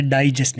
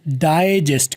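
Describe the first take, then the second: First: डाइजेस्ट as 'daa-ee-jest', full ee glide; wrong pronunciation. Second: डाइजेस्ट as 'dae-jest', softened first diphthong; right pronunciation. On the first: Teacher shows students what to avoid, wrong pronunciation. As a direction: say डाइजेस्ट with a clear ee. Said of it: "डाइजेस्ट नहीं करना". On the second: Teacher models the word for students, right pronunciation. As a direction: say डाइजेस्ट with 'dae', glide not finished. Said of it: "डाइजेस्ट करना है". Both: Shown as a demonstration.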